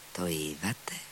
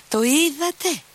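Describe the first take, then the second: First: A low, hushed first "Το είδατε; hushed question. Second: A very high shriek on "Το είδατε. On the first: Captain, beside himself, asks Alyosha under his breath. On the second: Screech it, beside himself. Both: A narrator's reading. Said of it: "τσίριξε χλωμός και εκτός εαυτού".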